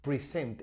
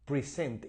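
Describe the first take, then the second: First: The stress is on the second syllable. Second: The same.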